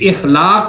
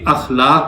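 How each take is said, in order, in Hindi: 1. यह शब्द 'i' स्वर से शुरू होता है। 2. यह शब्द 'a' स्वर से शुरू होता है। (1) "अक्सर लोग गलती करते हैं, इखलाक बोलते हैं" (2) "बल्कि अखलाक होता है"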